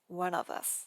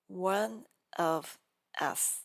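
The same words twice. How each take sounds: First: The V is linked straight into the next vowel. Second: The V is kept apart from the next vowel.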